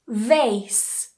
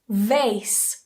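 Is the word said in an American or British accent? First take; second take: American; American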